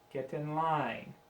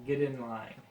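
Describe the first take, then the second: First: The T in 'get' is a clear T. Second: The T in 'get' sounds like a D.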